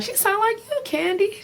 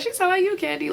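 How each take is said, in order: First: High teasing lilt; mimicking Portia. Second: Mimicking Portia again. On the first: Portia teasing Kandi about a caroler, high. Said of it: "Portia was like". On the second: Portia teasing Kandi once more, high. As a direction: repeat the high tease. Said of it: "she was like".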